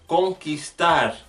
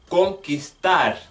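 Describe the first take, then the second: The two takes are said the same way.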